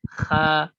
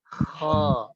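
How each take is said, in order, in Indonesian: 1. Suku katanya terdengar ringan, dengan pangkal lidah di belakang rendah. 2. Suku katanya terdengar berat, dengan pangkal lidah di belakang naik. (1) "Seperti kayak kita melakukan kha aja" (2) "tapi pangkalnya dinaikkan"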